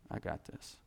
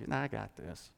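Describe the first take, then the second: First: Hushed aside as God's quiet assurance; soft, breathy whisper of I got this; whispered echo. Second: Said in the usual way. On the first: Shown as a demonstration. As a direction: whisper it, much softer.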